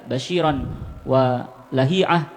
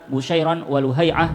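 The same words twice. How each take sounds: First: Both names start with an 'a' vowel. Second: Both names start with a 'u' vowel. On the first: "بفتح أولهما" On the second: "بضم أولهما"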